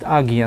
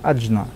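First: The middle consonant is a hard g sound. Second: The middle consonant is a j sound. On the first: The speaker calls it wrong. "Ее иногда называют Агья, но это неправильно" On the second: The speaker calls it right. "то читается как Аджна"

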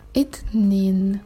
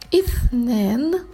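First: Egyptian pronunciation, with a plain t sound. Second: Classical pronunciation, with a soft th sound. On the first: "Бел-масри на египетском" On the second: "Итнен это на классическом арабском языке"

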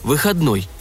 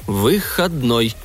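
First: The word is said smoothly in a confident, metallic voice. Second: The word is broken into separate syllables. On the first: "Уже уверенно лязгал металлом мой голос" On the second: "по слогам сказал я"

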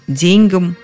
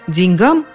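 First: The stress falls on the first syllable. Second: The stress falls on the final syllable. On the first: This is an old-fashioned, elevated way of saying it. "Есть в этом произношении что-то возвышенное, необыденное" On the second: This is the everyday modern way people say it. "все поголовно говорят именно так"

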